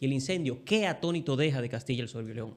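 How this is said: The word 'que' is stressed after a pause. The line exclaims how astonished the fire left the lion. The speaker calls it right. "si tiene tildes"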